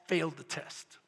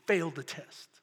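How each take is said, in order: Both takes have the same delivery.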